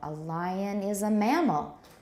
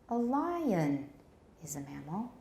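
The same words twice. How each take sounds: First: The voice falls at the end. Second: The voice rises at the end. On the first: It corrects a wrong claim. "Con contrastive stress here" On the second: It asks why such a simple answer was missed. "还要上升 ，continuation rise"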